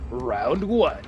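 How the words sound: It is said with lively, excited energy. "That what I just did there was more excitement than the fucking announcer"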